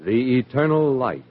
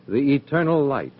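Both takes have the same delivery.

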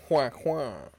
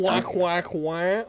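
First: Whack, whack in two quick beats, dropping at the end; syllables beaten out. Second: Whack, whack, whack chopped into three even hits; syllables beaten out. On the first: Explaining syllables to a friend, two quick beats. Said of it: "or you just wanna go". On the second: Explaining syllables to a friend, three chopped beats. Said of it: "If you wanna go". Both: Shown as a demonstration.

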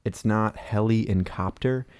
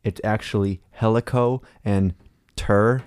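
First: Heli and copter said slowly and apart; split syllables. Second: Helico and ter separated by a pause; correct split. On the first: Explaining the word helicopter, slow split syllables. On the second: Explaining the word helicopter, pausing between helico and ter. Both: Shown as a demonstration.

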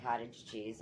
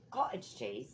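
First: Said in the usual way. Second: "Cottage cheese" in a put-on British accent; mock British accent. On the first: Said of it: "But anytime I get cottage cheese". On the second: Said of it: "people in England do that".

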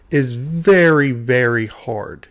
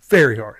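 First: Slow, with "very" stretched out; patronizing slow stress. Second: Said in the usual way. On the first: Real, not acted. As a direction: spell it out for slow learners, drawing out "very hard". Mock-patient explanation to the writers.

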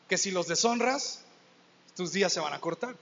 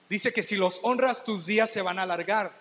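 First: Twist the promise, ending on cortar; stress on deshonras and cortar. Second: Honras and días leaned on, the promise said firmly; stress on honras and alargar. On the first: Preacher turns the promise into a grim joke, wry. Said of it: "contrast with honras / alargar". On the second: Preacher stresses the promise to the congregation, firm. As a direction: press on honras, then on días. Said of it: "contrast with deshonras / cortar". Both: Shown as a demonstration.

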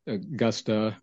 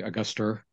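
First: "Augusta" drawn out, ending in plain "ah"; r-less ending. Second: "Auguster" with an r on the end; added final r. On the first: Local showing how some say the capital, "Augusta" ending in "ah". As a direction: say "Augusta" slowly with no r at the end. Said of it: "some will, some will say". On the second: Local showing the other way, "Auguster" with an r added at the end. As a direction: end "Auguster" on a clear "er" sound. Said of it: "or some will say". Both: Shown as a demonstration.

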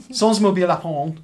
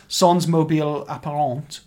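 First: Louder, stiffer French attempt; French accent. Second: French pronunciation of the title; French accent. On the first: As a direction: repeat the title in French again. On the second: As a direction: say it like a native French speaker. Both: Shown as a demonstration. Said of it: "trying to do my best French accent there".

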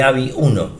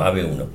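First: "avi" said as one word, a-vi; "avi uno" pronounced like a word, not letters; read as a word. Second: "A V" said as the letters a, ve; "A V uno" spelled out letter by letter. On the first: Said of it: "Eh, avi no". ("avi" leído como palabra) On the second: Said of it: "Eh, avi no, A V uno". ("A V" deletreado, a uve) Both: Shown as a demonstration.

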